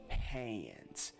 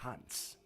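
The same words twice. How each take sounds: First: The vowel in hands has a hood-accent sound. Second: The vowel in hands sounds standard. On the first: The speaker calls it right. "I say hands. Because the American accent, the letter A itself has a different sound" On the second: The speaker calls it wrong. "I don't say hands"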